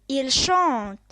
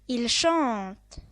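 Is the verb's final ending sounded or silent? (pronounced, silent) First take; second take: silent; silent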